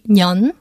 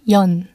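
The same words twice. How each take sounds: First: The syllable begins with an N sound. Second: The syllable begins with a vowel sound. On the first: "when this character is used as a second syllable" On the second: "when it's used as the first syllable"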